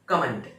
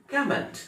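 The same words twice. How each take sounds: First: कमेंट as "ka-MENT", loud and falling; wrong pronunciation. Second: कमेंट with the first syllable high and loud; correct pronunciation. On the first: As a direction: say the mistaken "ka-MENT" loudly. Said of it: "इसको ऐसे नहीं है". (कमेंट का गलत उच्चारण "कमेंट", ज़ोर से) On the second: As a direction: hit "KOM" hard, lighter "ent". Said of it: "इसको". (कमेंट का सही उच्चारण, पहले हिस्से पर ज़ोर) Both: Shown as a demonstration.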